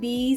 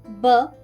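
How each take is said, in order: First: The letter is said as its full name. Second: The letter is said as its short sound. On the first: The speaker calls it wrong. "ऐसे नहीं कराना चाहिए" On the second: The speaker calls it right. "ये जो है ये फोनिक्स हैं"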